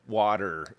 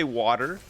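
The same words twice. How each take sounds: First: "water" ending on a clear r; American water. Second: "water" with a flapped t and a strong r at the end; American water. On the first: Quoting the word his wife can't say, American "water". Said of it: "But she can't say". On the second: Showing chat how he says it, American "water". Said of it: "I would say". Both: Shown as a demonstration.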